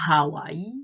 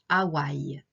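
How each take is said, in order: First: The initial H sound is pronounced. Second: The initial H sound is silent. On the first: "les personnes qui connaissent Hawaï vont prononcer Hawaï" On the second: "les Français disent Hawaï"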